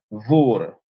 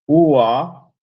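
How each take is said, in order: First: The word begins with a v sound. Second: The word begins with a vowel sound. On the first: This is how locals adapt the foreign word. "Se escucha Vur" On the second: This is the original foreign form. "comienza con una U"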